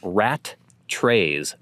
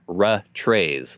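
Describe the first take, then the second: First: Both t sounds are pronounced, rat then trays. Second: Only the second t is pronounced, ra trays. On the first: The speaker calls it right. "So like saying rat trays" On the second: The speaker calls it wrong. "or ra trays, like most people pronounce it"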